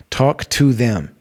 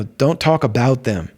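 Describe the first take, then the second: First: Slow, with "to" stressed. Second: "about" stressed, falling away after it. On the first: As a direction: land firmly on "to" as the correction. Corrects about to to. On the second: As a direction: lean on "about" to set up the contrast. Contrasting talking about with talking to. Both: Real, not acted.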